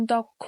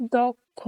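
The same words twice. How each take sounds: First: Said in the usual way. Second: দক্ষ said as দোক্ খো, the first vowel like o; pronounced. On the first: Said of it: "এর মতো উচ্চারণ হয়". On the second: Shown as a demonstration. Teacher showing students how to say দক্ষ. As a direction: give দক্ষ an o sound, a clear model. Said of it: "এ, ও".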